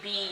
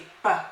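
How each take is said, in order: First: The letter is said as its alphabet name. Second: The letter is said as its short sound. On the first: "Instead of saying B" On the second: "you're gonna say B"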